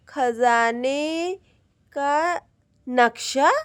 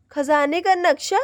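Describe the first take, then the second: First: Drawn-out syllables, as if reading with effort; puzzling out the words one by one; slowly spelled out. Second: Said in the usual way. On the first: Acted. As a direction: sound out each word slowly. Slowly deciphering the map.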